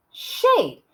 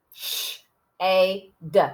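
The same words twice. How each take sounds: First: "shade" in one go, high-pitched; whole word "shade", high and joined; blended word. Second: "Sh-, A, D" as separate sounds; sounding out. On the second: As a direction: pause between "Sh-", long "A" and short "D". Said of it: "I hear shh". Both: Shown as a demonstration.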